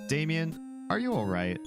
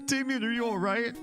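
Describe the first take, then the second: First: It is said flatly, without alarm. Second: It is said with alarmed exclamation.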